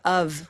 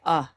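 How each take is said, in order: First: The word ends with a clear f sound. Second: The word is reduced to uh, no f. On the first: "Instead of of" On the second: "we can say uh"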